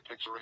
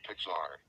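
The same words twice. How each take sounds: First: First "Pixar" with a weak "-er" ending; mispronounced. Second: Said in the usual way. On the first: Shown as a demonstration. Showing what he says instead, mispronounced "Pixar". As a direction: reduce the end of "Pixar" to "pixer". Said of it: "unable to pronounce Pixar properly". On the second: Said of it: "instead of Pixar".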